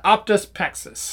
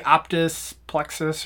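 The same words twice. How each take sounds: First: "Optus Pexus" said with no L, "Pexus"; "Optus Pexus" as PEK-sus; corrected name. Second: "Optus Plexus" said with an L, "Plexus"; "Optus Plexus" with the L sound before the E; wrong name. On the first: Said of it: "but then it was Pexus". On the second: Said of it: "I thought it was Plexus 'cause that made sense". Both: Shown as a demonstration.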